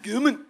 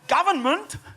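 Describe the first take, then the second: First: The middle of the word is squashed together. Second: Every syllable of the word is said clearly. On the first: It mocks someone who mispronounces the word. The speaker calls it wrong. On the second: This is the normal pronunciation. The speaker calls it right.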